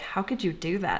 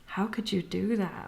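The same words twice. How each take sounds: First: It sounds disapproving and judgmental. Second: It sounds admiring and amazed.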